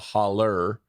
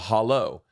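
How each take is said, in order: First: The word ends with an 'er' sound. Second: The word ends with an 'oh' sound. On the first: This is the local rural way of saying it. "they call it a holler" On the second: This is the standard way of saying it. "instead of a hollow"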